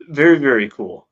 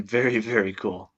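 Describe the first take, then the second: First: Loud, punchy very very cool; emphatic. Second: Said in the usual way. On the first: Real, not acted. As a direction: lean hard on very, very cool. Repeats very cool twice.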